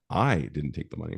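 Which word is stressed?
I. The stress is on "I".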